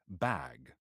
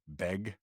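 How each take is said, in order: First: The vowel sounds like the one in 'cat'. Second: The vowel sounds like the one in 'beg'. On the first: The speaker hides the local accent. "and then so now I'm like" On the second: The speaker sounds like a Seattle local. "if you're a local from Seattle, you say you pronounce B A G, beg"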